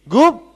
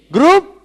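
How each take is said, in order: Both takes have the same delivery.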